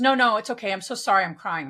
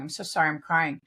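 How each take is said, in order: First: Said in the usual way. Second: Imitating a tearful woman. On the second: Retelling the crying woman's apology, mock-tearful. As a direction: echo the crying woman's apology more gently. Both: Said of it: "She goes".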